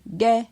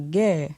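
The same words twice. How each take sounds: First: The syllable has a mid tone. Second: The syllable has a falling tone. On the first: "Avec un ton moyen" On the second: "avec un ton descendant"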